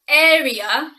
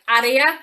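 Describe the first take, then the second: First: The word is said with an English pronunciation. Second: The word is said with a Spanish-like pronunciation. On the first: The speaker calls it right. "but it's area" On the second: The speaker calls it wrong. "many Spanish speakers find this quite difficult to pronounce, and it often comes out something like area"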